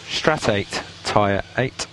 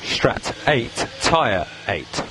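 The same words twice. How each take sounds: The two takes are said the same way.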